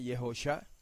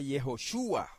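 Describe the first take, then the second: First: The name is said as Yehusha. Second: The name is said as Yehoshua. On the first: The speaker calls it wrong. "Algunos dicen Yehusha" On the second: The speaker calls it right. "para que se lea Yehoshua"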